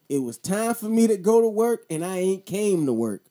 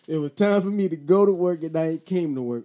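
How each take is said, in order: First: Louder, punched retelling; emphatic repeat. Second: Said in the usual way. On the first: Shown as a demonstration. Repeating the line to the viewers for emphasis. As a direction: hit it like a punchline. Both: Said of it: "Yeah, I said it just like that".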